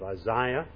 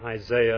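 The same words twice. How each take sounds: First: The name is said with a non-American pronunciation. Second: The name is said with an American pronunciation. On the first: "instead of Isaiah" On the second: "we in America say Isaiah"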